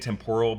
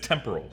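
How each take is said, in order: First: The stress is not on the first syllable. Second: The stress is on the first syllable. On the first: The speaker calls it wrong. "that's how um, uh, Owen Wilson says it" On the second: The speaker calls it right. "accent on the first syllable"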